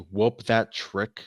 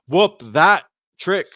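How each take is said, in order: First: It is said without a pause before trick. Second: There is a pause before trick.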